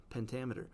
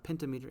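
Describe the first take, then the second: First: "pentameter" as pen-TAM-uh-ter, stressed on TAM; correct pronunciation. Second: "pentameter" as PEN-ta-MEE-ter; misleading pronunciation. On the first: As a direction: put the stress of "pentameter" on its second syllable. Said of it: "It's not pentameter, it's pentameter". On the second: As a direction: say "pentameter" like penta plus meter. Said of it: "the pronunciation might throw you off". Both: Shown as a demonstration.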